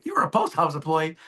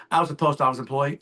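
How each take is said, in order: First: Mock-surprised question with a pitch jump; surprised echo. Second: Said in the usual way. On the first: Agent echoing the client's old job, surprised. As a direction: repeat it back, mildly amazed.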